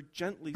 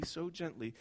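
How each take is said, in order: First: Said in the usual way. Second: Tender. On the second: A narrator's reading.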